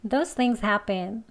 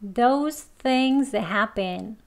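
First: The sentence is said at a fast pace. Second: The sentence is said at a slow pace. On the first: "이번엔 좀 빨리 합니다" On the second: "두 번 천천히 해보겠습니다"

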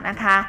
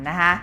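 No difference in how they are said.

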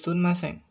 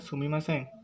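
First: The 'mi' is reduced to an 'n' sound. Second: The full syllable 'mi' is said after 'su'. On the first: This is the Kansai dialect form. "kalau di Kansai Bank atau logat Kansai, bacanya jadi sunmasen" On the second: This is the standard Japanese form. "di bahasa Jepang standarnya adalah sumimasen"

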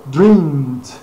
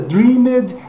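First: The ending has no vowel, one syllable only. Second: The ending is a separate syllable with a vowel. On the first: The speaker calls it right. "mas seria dreamed. Essa é a pronúncia, o E desaparecendo também" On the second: The speaker calls it wrong. "No passado não seria dreamed"

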